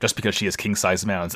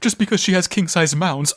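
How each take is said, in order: First: It is said in his normal voice. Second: It is said in Mashmere's put-on voice.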